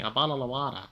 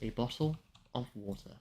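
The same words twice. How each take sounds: First: It is said in the expected British accent. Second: It is said in a posh London accent. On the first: "I know you're expecting a bottle of water" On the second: "I have my mother's accent, which is London, posh"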